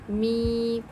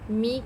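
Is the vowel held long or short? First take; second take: long; short. First: The vowel is drawn out for two counts. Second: The vowel is short, not drawn out. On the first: The speaker calls it right. "दो हरकत के बराबर खींचेंगे" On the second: The speaker calls it wrong. "मी के बजाय"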